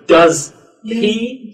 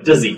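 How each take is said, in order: First: The two words are said separately. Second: The two words run together smoothly. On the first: The speaker calls it wrong. "we don't go does he" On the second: The speaker calls it right. "So these connect together. ... We go does he"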